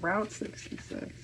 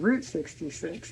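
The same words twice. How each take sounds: First: Route is said with an ow vowel, like rout. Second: Route is said with an oo vowel, like root. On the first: The speaker calls it wrong. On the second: The speaker calls it right. "you would pronounce it root"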